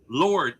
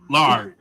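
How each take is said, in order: First: The vowel is a rounded 'or'. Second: The vowel is an open unrounded 'ah'. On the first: It names God. The speaker calls it right. "It's Lord" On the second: It sounds like the cooking fat. The speaker calls it wrong. "Learn to enunciate and get the marbles out your mouth"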